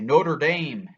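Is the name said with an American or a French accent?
American. The name is said with an American accent. The speaker calls it wrong. "as Americans we say Notre Dame, but that's not not actually how you pronounce it"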